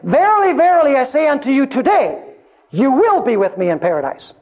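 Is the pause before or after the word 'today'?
after. The pause comes after the word today.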